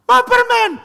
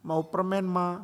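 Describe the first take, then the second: First: High, loud mock tantrum yell; hammed-up child's scream. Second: Soft, pleading little plea; small, pouty mock pleading; pitiful child. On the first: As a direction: shriek a demand like a toddler. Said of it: "teriak lebih keras". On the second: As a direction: imitate a child begging sweetly. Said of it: "tunjukkan muka memelas".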